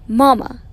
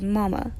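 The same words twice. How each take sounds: First: A somewhat loud doll's call; loud practice. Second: Softer, hushed doll's call. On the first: Samantha practices her mama doll line, loudly. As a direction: say it out firmly, rehearsing. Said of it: "very loudly". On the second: Samantha practices her mama doll line, very softly. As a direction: say it small and quiet. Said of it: "very softly". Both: A narrator's reading.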